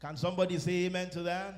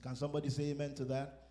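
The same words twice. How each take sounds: First: Loud rising call for an amen; louder call. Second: Said in the usual way. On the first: Shown as a demonstration. Preacher calling the congregation to answer, louder with a rise. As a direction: push the crowd to answer.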